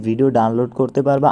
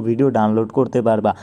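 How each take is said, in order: Both takes have the same delivery.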